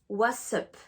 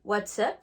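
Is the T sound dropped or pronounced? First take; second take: dropped; pronounced. First: The T sound is dropped entirely. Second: The T sound is clearly pronounced. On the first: All three words are contracted together. "On ne prononce plus le T" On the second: Only the words what and is are contracted. "soit vous contractez what is"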